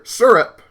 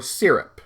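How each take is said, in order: First: "syrup" as SUR-up; first variant. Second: "syrup" as SEER-up; second variant. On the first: Unsure how they say it, trying SUR-up. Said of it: "I forget how I say it". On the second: Unsure how they say it, trying SEER-up. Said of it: "It's either syrup". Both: Shown as a demonstration.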